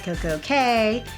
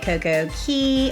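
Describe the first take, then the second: First: The last word rhymes with 'day'. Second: The last word rhymes with 'key'. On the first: "it should be perfect day at Coco Cay because it rhymes" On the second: "however you decide to pronounce that"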